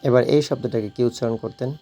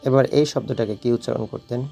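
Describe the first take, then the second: Both takes have the same delivery.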